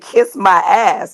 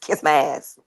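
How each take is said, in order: First: Each sound is clearly and carefully pronounced. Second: The sounds are run together quickly and loosely. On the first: The speaker calls it right. "I'm pronouncing my words" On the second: The speaker calls it wrong. "not just"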